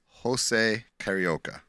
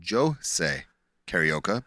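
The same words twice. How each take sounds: First: The name is said with English-style sounds. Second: The name is said with Portuguese sounds. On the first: The speaker calls it wrong. "But it's not" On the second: The speaker calls it right. "that's how the Portuguese pronounce that"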